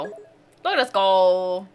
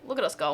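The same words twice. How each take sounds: First: Stretched slow, sing-song look at us go; slow drawn out. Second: Said in the usual way. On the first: Real, not acted. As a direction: draw it out proudly.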